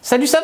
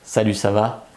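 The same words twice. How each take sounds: First: The greeting sounds nervous and stressed. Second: The greeting sounds calm and relaxed.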